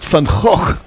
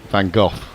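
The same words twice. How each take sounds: First: The name is said with a Dutch pronunciation. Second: The name is said with an English pronunciation. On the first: "if you did the proper Dutch, it would be" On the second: "the anglicised version would be"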